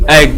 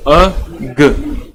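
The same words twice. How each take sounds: First: Said in the usual way. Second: एग repeated with its opening vowel held a little longer; teacher repeats एग so pupils hear the vowel; repeated demo pronunciation. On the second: Shown as a demonstration. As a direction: say एग again, leaning on the opening e sound. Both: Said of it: "pronounce करना है".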